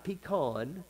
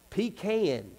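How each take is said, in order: First: Pecan as pee-KAHN, open 'ah'; softly mock the outsiders' pecan, pee-KAHN; non-Southern pecan. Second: Pecan as pee-KAN, flat South 'a'; Southern pecan. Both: Shown as a demonstration. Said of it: "not pecan".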